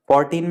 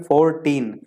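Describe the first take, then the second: First: Said in the usual way. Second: Put-on फोर्टीन split into two beats, four - teen; फोर्टीन with a break before the last syllable; syllables separated. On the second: Shown as a demonstration. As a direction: say फोर्टीन in two distinct pieces. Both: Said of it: "two syllable में अलग-अलग लेना पड़ता है".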